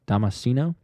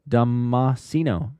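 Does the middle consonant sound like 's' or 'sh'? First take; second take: s; sh. First: The middle consonant sounds more like 's'. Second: The middle consonant sounds strongly like 'sh'.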